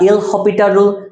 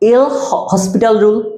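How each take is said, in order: First: The name is said without an s sound. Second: The name is said with an s sound. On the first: "বা এল হপিটাল rule" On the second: "এই যে রুলটা এল হসপিটাল rule"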